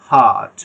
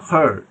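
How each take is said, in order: First: "হার্ট" with a wide open, long aa; open vowel. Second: "হার্ট" as "huht", tongue raised, r silent; hesitation vowel. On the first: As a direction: let the breath pour out on an open "হার্ট". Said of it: "আ, প্রথম যে open আ". ("হার্ট" খোলা আ দিয়ে) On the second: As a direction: hold the breath back a little on "হার্ট". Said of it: "এটা hesitation". ("হার্ট" জিহ্বা তুলে hesitation আ দিয়ে) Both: Shown as a demonstration.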